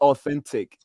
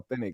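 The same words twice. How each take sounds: First: The final T sound is clearly pronounced. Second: The final T sound is dropped. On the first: This is the careful form nobody uses. "nobody ever says authentic" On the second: This is how people say it in everyday talk. "Nobody ever says the last T"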